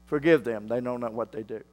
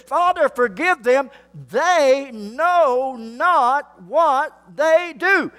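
First: Hushed, near silent. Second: Jesus's words. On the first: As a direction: drop to a near whisper, tender. Quiet repeat of Jesus's words. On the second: Preacher voicing Jesus on cross. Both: Acted.

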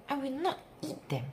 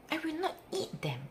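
Both takes have the same delivery.

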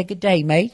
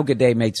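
First: Good day, mate said high in a put-on English-Australian accent; mock Aussie-English accent. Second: Said in the usual way. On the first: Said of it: "Still talking". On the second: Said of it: "All fucking bullshit".

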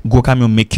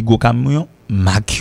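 First: "make" said as short "mek" for Mack; wrong vowel demo. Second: "Mac" with an open A; open-vowelled "Mac", set apart clearly; correct vowel demo. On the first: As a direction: say "gros camion make" with "make" like "mek". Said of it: "ou pas dit make". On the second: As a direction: say "gros camion Mac" with "ah" in "Mac". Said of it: "il a dit Mac". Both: Shown as a demonstration.

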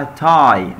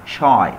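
First: تاي starting with a plain t, "tie"; correct t sound. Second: شاي starting with sh, "shy"; sh replacing the t in شاي; wrong sh sound. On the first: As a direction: open تاي on t, not sh. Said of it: "اسمها تاي مش". (تاي بالتاء مش بالشين) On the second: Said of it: "تاي مش". (شاي بالشين بدل التاء) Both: Shown as a demonstration.

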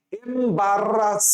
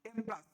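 First: এমবারাস slowly as em-barr-ras, with a long r; drawn-out pronunciation. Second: Said in the usual way. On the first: Shown as a demonstration. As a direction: stretch এমবারাস and dwell on the double r. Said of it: "আমি কিভাবে উচ্চারণ করতে দেখো".

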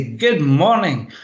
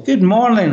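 First: Slow, smiling "Good morning." with a falling close; smiling greeting. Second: "Good morning," pitched higher and louder, falling away; varied tone. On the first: Trainer switching on for a session, smiling slow greeting. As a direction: greet the room with a smile, slowly. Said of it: "I would clap my hands, smile, and say". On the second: Trainer showing presenters how to vary their tone, high and loud greeting. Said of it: "raising and lowering the tone of your voice". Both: Shown as a demonstration.

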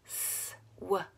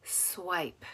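First: "Swipe" quietly split into s, w, long i, p; sound by sound. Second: Said in the usual way. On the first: Shown as a demonstration. Teacher gives sounds to put together, "Swipe" segmented. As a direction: pause after each sound of "Swipe". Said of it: "say the sounds of the word". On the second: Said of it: "you're gonna put it together".

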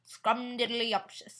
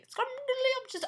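First: Scrumdiddlyumptious said slowly and savored, falling at the end; drawn-out silly word. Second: Scrumdiddlyumptious squeaked much higher and a little slow; squeaky silly word. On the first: Savoring the silly cake word Scrumdiddlyumptious, slow and falling. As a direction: stretch out Scrumdiddlyumptious slowly like tasting it. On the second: Repeating the cute cake word Scrumdiddlyumptious in a much higher squeak. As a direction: pop Scrumdiddlyumptious up high and cute. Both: Shown as a demonstration. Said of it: "That's cute".

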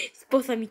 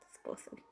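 First: Said in the usual way. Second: Breathy whispered marry me; whispered proposal. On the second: Pretend. Gamer jokingly proposing to Chica, in a whisper.

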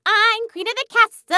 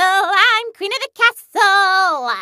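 First: Chanted, high sing-song boast; playground chant. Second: Chanted, slow, high sing-song boast; drawn-out playground chant. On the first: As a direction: chant it high like a child's taunt. Playground chant, first take. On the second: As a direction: stretch out the last word as you chant. Playground chant, slower repeat. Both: Acted.

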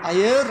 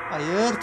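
First: Loud high frightened hayır; panicked no. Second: Said in the usual way. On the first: Real, not acted. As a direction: cry out hayır in alarm. Refusing in panic.

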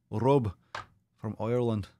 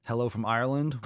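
First: Hammed-up Irish accent; bad Irish accent. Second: Said in the usual way. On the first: Streamer greets a viewer from Ireland, put-on Irish accent. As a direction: attempt an Irish brogue, badly. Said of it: "I'm apologize if that accent sucked". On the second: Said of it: "that accent".

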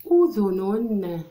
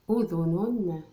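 First: Very slow and much louder أذن; drawn-out loud word. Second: Said in the usual way. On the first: Shown as a demonstration. Teacher presenting the word to the class, drawn out and loud. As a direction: call أذن out long and loud. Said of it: "teacher sounds out the word". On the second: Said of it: "teacher repeats word".

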